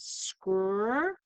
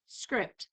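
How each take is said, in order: First: "scr-ipt" broken into drawn-out "scr", pause, then "ipt"; sounded out slowly. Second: Said in the usual way. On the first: Shown as a demonstration. Teacher sounding out the second syllable, "scr-ipt" slowly split. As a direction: say "scr-ipt" in two slow separate sound chunks. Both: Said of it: "which says scr-ipt".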